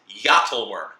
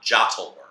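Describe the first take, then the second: First: The word begins with a Y sound. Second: The word begins with a J sound. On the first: The speaker calls it right. "J is pronounced as Y. So my favorite card in the set is" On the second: The speaker calls it wrong.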